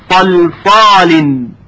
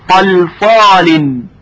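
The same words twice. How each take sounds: The two takes are said the same way.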